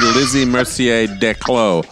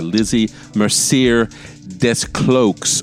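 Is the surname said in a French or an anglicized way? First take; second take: French; anglicized. First: The surname is said with a French pronunciation. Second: The surname is said literally, as English spelling. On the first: "shots in the dark here with the French pronunciation" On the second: "the British thing, which is to annoy the French, they pronounce it very literally"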